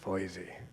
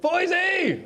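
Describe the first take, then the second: First: It is said calmly at normal loudness. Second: It is yelled loudly and excitedly.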